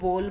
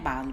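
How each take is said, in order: First: The vowel is a closed o sound. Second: The vowel is an open aa sound. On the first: "ऊपर ओ की मात्रा लगाकर लिखें तो बोल बन जाएगा" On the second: "बाल भी नहीं है"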